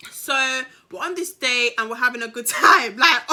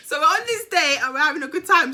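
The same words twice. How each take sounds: First: Giggling through the line, about to crack up; laughing through it. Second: Said in the usual way. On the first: Real, not acted. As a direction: say it while the laughter bubbles up. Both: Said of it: "Sorry, I had to do that outburst".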